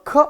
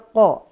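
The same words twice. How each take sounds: First: The k sound is made further forward, like ka. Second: The k sound is made deep at the tongue root. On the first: The speaker calls it wrong. "Kalau ko berarti ka dikasih o, salah" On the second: The speaker calls it right. "Dia ko"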